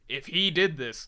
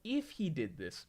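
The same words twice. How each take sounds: First: It is said in an angry, suspicious tone. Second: It is said in a calm, wondering tone. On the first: The speaker already assumes the worst. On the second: The speaker is open-minded about what happened.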